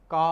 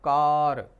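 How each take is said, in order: First: का said with a long open a and no r sound; British English का, r silent; British non-rhotic. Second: कार said louder with a clear r at the end; American English कार with a clear r; American rhotic r. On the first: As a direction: drop the r, just a long का. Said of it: "यहाँ पे होगा सिर्फ". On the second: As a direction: sound the r in कार fully. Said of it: "और American English में होगा". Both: Shown as a demonstration.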